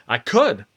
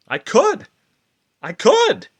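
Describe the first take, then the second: First: Said in the usual way. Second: Leaps up high and louder, thrilled; high excited cry. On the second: Acted. Manic mind convincing herself, soaring and elated. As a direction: fling it up like a sudden revelation. Repeated "I could" building.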